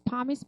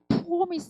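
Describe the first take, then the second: First: The first vowel is open and unrounded. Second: The first vowel is rounded like 'o'. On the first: "promise 하시면 됐는데" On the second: "여기 약간 어떻게 들으면 promise 이렇게 드릴게요. 오자로 오를 약간 오 이렇게 하죠. 이게 약간 영국식 발음"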